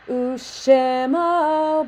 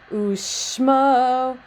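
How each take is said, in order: First: A short vowel is sounded between sh and m. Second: No vowel is sounded between sh and m. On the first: The speaker calls it right. "you get a better sound of Ushemo, Ushemo by adding the Shva in there" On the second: The speaker calls it wrong. "Ushmo, Ushmo. It just doesn't work"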